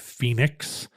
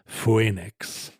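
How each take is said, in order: First: The first vowel is a plain 'ee' sound. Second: The first vowel is split into 'oh-ee'. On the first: The speaker calls it right. "but it's pronounced as an E" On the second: The speaker calls it wrong. "You don't say Phoenix"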